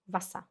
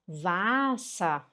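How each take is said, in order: First: The first vowel is said short and quick. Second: The first vowel is drawn out long. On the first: The speaker calls it right. "É Wasser" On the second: The speaker calls it wrong. "Se você falar Wasser, a pessoa vai te entender, mas está errado"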